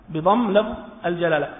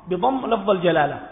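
No difference in how they are said.

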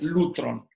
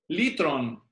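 First: The first vowel sounds like 'oo'. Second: The first vowel sounds like 'ee'. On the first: "algunos dicen que es lutron" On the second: "la pronunciación moderna"

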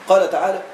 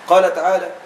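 Both takes have the same delivery.

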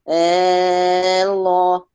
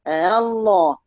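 First: The second hamza becomes a long drawn alif. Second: The second hamza is softened, not fully pronounced. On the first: "والإبدال؟" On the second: "لما تيجي تقرأيهم بالتسهيل"

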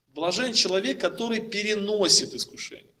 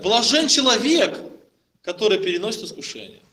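First: The word переносит carries the main stress. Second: The word человек carries the main stress. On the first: The blessing lies in enduring the temptation. The speaker calls it right. "в этом предложении важно выделить слово «переносит»" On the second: It is specifically a person who is blessed. The speaker calls it wrong. "Получается, что блажен именно человек"

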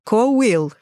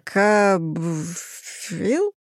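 First: The middle is said with a 'w' glide. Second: The middle is said with a 'bf' sound. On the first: The speaker calls it right. "а читается коуил" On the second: The speaker calls it wrong. "Я бы тоже сказала, что это какой-то кобфил"

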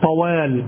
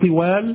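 First: The first vowel is an 'a' sound. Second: The first vowel is an 'i' sound. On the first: The speaker calls it right. "طوال الدهر بفتح الطاء" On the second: The speaker calls it wrong. "لا تقول طوال بكسر الطاء"

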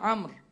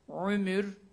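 First: The first vowel is an open a sound. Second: The first vowel is a rounded u sound. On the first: This is a lightened form, easier to say through frequent use. "Hafiflik olsun diye fetha telaffuzu kolay oluyor" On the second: This is the word's original form. "Bu kelime Arapçadaki telaffuzu ile aslında ömürdür"

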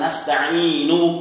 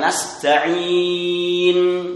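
First: The final vowel is pronounced fully. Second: The word ends without any final vowel. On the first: "bukan nasta'inu" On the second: "Disukunkan nasta'in"

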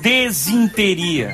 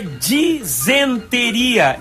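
First: The first vowel is e, the second i. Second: The first vowel is i, the second e. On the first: The speaker calls it wrong. "e não desinteria" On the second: The speaker calls it right. "A pronúncia certa é disenteria"

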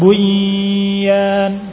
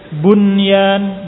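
First: The n merges into the following y sound. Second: The n is pronounced clearly before the y. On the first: The speaker calls it wrong. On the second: The speaker calls it right.

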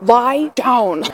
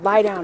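First: The command is said in a firm, stern tone. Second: The command is said in a calm, plain tone. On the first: The dog did not obey and must now comply. "I really need you to lie down this time" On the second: A first, ordinary request to the dog. "you may hear someone go lie down"

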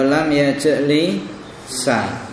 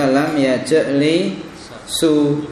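First: The verb ends with an added a vowel. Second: The verb ends with an added u vowel. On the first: "enggak boleh kok dibaca" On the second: "enggak boleh kok dibaca"

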